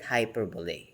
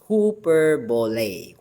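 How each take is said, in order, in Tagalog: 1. Ang unang pantig ay tunog na 'hi'. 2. Ang unang pantig ay tunog na 'hoo'. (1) "if you're going to read it outright, we can read it hyperbole" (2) "But the pronunciation is hooperbole"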